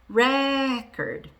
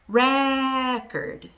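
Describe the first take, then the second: First: The stress is on the first syllable. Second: The stress is on the first syllable.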